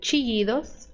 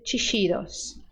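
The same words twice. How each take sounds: First: The ll is said like an English y. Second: The ll is said like an English sh. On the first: "som de I" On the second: "som de S H"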